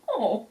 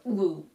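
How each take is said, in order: First: It sounds pleased and delighted. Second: It sounds uneasy and dismayed. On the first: The materials look good. The speaker calls it right. "just something where it's a pleasant thing" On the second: The materials are a problem. The speaker calls it wrong. "this is a problem"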